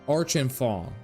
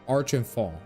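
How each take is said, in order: The two takes are said the same way.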